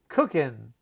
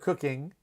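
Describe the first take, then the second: First: The ending is said with an n sound. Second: The ending is said with a full ng sound. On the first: The speaker calls it right. "we always drop that G with the ing ending" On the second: The speaker calls it wrong. "instead of"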